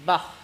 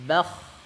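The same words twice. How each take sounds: First: The final kh sound is cut off short. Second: The final kh sound is drawn out and flowing. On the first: The speaker calls it wrong. "tidak dialirkan suaranya" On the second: The speaker calls it right. "kan ngalir, harusnya"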